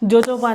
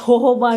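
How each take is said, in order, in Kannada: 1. ಈ ಪದ J ಶಬ್ದದಿಂದ ಶುರುವಾಗುತ್ತೆ. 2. ಈ ಪದ H ಶಬ್ದದಿಂದ ಶುರುವಾಗುತ್ತೆ. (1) "ಜೋಜೋಬಾ ಅಂತಾರೆ" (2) "ಹೋಹೋಬಾ ಅಂತಾರೆ"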